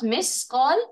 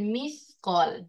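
First: The middle consonant is an 's' sound. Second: The middle consonant is a 'th' sound. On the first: The speaker calls it wrong. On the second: The speaker calls it right.

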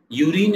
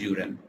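First: The word ends with a long 'rine' sound. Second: The word ends with a short 'rin' sound. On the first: The speaker calls it wrong. "Urine is incorrect" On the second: The speaker calls it right. "You pronounce it as urine"

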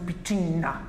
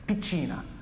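First: The n sound is long and doubled. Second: The n sound is short and single. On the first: "which would be a double N" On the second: "the single n in Italian almost doesn't exist"

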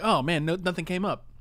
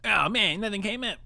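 First: It is said in the speaker's normal voice. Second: It is said in a put-on cartoon character voice.

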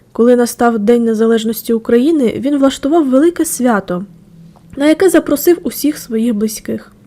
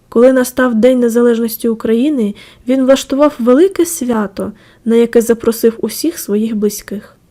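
Both takes have the same delivery.

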